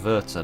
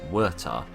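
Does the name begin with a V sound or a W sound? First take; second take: V sound; W sound. First: The name begins with a V sound. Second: The name begins with a W sound. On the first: The speaker calls it right. "the W is pronounced like a V" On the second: The speaker calls it wrong. "not the"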